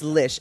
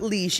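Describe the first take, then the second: First: The syllable has a short 'i' vowel. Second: The syllable has a long 'ee' vowel. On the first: The speaker calls it right. "It's lish" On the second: The speaker calls it wrong. "It's not leash"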